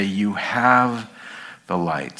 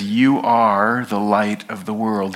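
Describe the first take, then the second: First: The wrong reading, "have" lifted then fading; stress on have. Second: "You" leaned on, rest steady; firm "You are the light of the world."; stress on you. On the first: Pastor showing congregation the misreading, "have" lifted. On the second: Pastor to congregation, weighting "You are". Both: Shown as a demonstration. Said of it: "He doesn't say".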